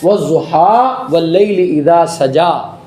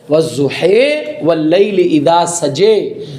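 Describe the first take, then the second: First: The line endings are read with an open 'a' vowel. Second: The line endings are read leaning toward an 'e' vowel.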